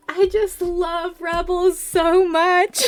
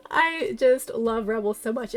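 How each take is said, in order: First: High, loud, slow fangirl wail; gushing wail. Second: Said in the usual way. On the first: Real, not acted. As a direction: wail your love for the show. Fan gushing after fake fan jab.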